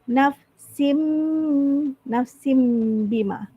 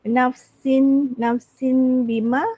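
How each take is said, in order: First: The word ends with an m sound. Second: The word ends with an n sound. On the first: The speaker calls it right. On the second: The speaker calls it wrong. "instead of"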